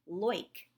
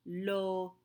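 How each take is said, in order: First: Loic as one syllable, "loyk"; merged oi sound. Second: Loic split slowly into "lo" and "eek"; separate vowels. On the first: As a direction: say loic wrongly with oi as in "oil". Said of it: "It's not a oi sound". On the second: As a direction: say loic with O and I as two French vowels. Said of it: "say each vowel by itself". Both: Shown as a demonstration.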